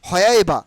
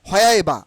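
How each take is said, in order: The two takes are said the same way.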